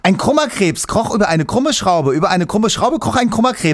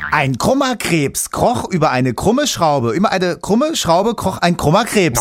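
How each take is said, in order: First: It is said at a faster pace. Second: It is said at a moderate pace.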